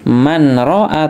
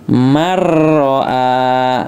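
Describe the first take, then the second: First: The n sound is clearly pronounced before r. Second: The n disappears and the r is doubled. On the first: The speaker calls it wrong. "tidak dibaca man ro'a" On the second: The speaker calls it right. "tapi dibaca marro'a"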